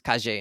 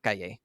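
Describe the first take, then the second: First: The double L sounds like a J. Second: The double L sounds like a Y.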